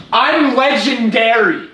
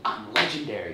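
First: Slow, loud, high boast; triumphant boast. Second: Said in the usual way. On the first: Real, not acted. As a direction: drag out the brag. Boasting after the win.

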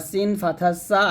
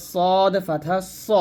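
First: Said in the usual way. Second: Slow সদ with a thick emphatic s; heavy sad. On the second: Shown as a demonstration. Teacher contrasting sin and sad, স said heavy. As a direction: round and darken the vowel in স. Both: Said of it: "মোটা করতে হবে".

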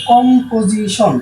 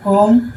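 First: Said in the usual way. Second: composition broken up with long pauses; composition pulled apart after কম and পো; split into syllables. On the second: Shown as a demonstration. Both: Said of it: "তিনবার আমরা উচ্চারণ করতে পারি".

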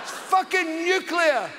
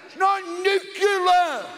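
First: "nuclear" shouted as "new-klee-ar", half laughing; correct nuclear, laughing. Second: "nuclear" slowly as "nook-yuh-ler", laughing; wrong nucular, laughing. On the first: Ranting at Bush, "new-klee-ar" shouted while laughing. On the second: Mocking Bush's "nook-yuh-ler", slow and laughing. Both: Shown as a demonstration.

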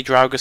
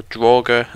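First: Draugr said as "DROW-ger"; Draugr, first syllable rhyming with "how"; own pronunciation of Draugr. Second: Draugr said as "DRAW-ger"; Draugr, first syllable like "draw", punched louder; corrected pronunciation of Draugr. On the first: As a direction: say Draugr with an "ow" as in cow. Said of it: "I was saying it wrong". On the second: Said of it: "as someone decided to tell me". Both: Shown as a demonstration.

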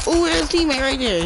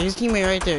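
First: High urgent warning; excited callout. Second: Said in the usual way. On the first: Real, not acted. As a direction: shout the spotted enemy.

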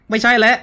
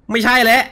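The two takes are said the same way.

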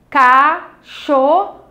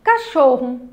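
First: "Cachorro" lento, CA... CHOR... RO; três pedacinhos. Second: Said in the usual way. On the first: Shown as a demonstration. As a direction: separe "Cachorro" com pausas entre as sílabas. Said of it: "Três pedacinhos". ("Cachorro" silabado, bem devagar) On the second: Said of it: "Vamos aos exemplos".

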